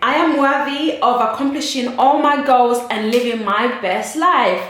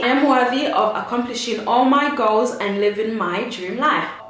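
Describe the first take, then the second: First: It is said with strong, emphatic conviction. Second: It is said calmly, without extra conviction.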